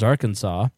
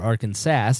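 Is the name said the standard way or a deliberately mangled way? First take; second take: standard; mangled. First: The name is said in its usual pronunciation. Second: The name is said in a deliberately mangled pronunciation. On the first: The speaker calls it right. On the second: The speaker calls it wrong.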